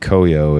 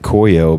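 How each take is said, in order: First: The name is said with a Japanese-style pronunciation. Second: The name is said with an English-style pronunciation. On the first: This is how the word would be said in Japanese. The speaker calls it right. "it should be Koyo if it's Japanese" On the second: This is how the band itself says its name. The speaker calls it wrong. "They pronounce it Koyo"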